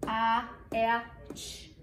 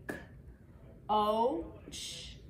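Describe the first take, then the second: First: "k, a, a, ch" as four separate letter sounds; sounds tapped separately. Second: "K, O, ch" as three separate sounds, one long O; one-tap vowel. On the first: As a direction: wrongly sound out "k, a, a, ch" with both vowels apart. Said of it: "We don't tap this separately". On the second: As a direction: sound out "K, O, ch" with a single long O between pauses. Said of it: "it's one tap. Tap it with me". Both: Shown as a demonstration.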